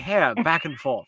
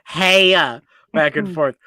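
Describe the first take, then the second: First: The r in hair is pronounced. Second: The r in hair is dropped. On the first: It is the plain way before coaching. "the first taping of that song is" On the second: It is the more urbanized way of saying it. "she pronounces it hey back and forth"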